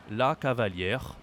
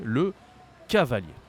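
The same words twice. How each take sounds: First: 'cavalière' ending in -yair with a French R; sounded final R. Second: 'cavalier' ending in -yay, no R, louder; emphatic French 'cavalier' with silent R; silent final R. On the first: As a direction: say 'la cavalière' with the R heard. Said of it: "if you say R, that does exist". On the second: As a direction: model 'Le cavalier' firmly, pause after 'Le'. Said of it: "So be careful, we say le cavalier". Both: Shown as a demonstration.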